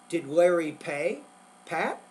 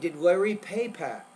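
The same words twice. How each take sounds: First: There is a pause before the final word. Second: There is no pause before the final word. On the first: The speaker is addressing Pat directly. "the speaker is talking to Pat. Again, the pausing is important here" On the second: Pat is the one who was paid. "there's really no pause after the word pay"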